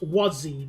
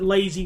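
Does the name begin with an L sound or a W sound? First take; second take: W sound; L sound. First: The name begins with a W sound. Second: The name begins with an L sound. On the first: The speaker calls it right. "It's pronounced Wazi" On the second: The speaker calls it wrong. "I'll pronounce it Lazy"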